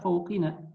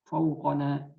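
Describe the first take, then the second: First: The vowel after the q is i. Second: The vowel after the q is a. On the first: The speaker calls it wrong. "tidak bisa fauqina" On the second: The speaker calls it right. "wajib dibaca e, mansub dengan fathah"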